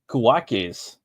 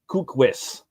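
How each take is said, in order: First: The name is said like 'kuwakes'. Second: The name is said like 'kukwis'. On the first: The speaker calls it wrong. "I think that's how you spell it or pronounce it" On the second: The speaker calls it right. "No, it's pronounced ku kukwis"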